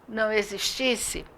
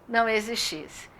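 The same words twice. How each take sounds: The two takes are said the same way.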